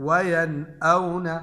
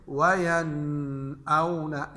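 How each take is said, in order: First: "वयन औना" with a clear n, no nasal hum; clear izhar. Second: "वयन औना" with the n held as a nasal hum; wrong ghunna. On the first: Teacher corrects the reading for students, clear unhummed n in "वयन औना". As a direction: release the noon of "वयन" cleanly, then "औना". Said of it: "बल्कि जाहिर करें". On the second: Teacher warns students with the wrong reading, humming the n in "वयन औना". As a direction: drag the noon of "वयन" through the nose before "औना". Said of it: "हम ये नहीं बोलेंगे". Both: Shown as a demonstration.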